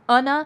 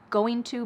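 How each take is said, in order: First: The words merge and the g sound is dropped. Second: Both words are said fully and separately. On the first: "or becomes unna" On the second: "going to becomes"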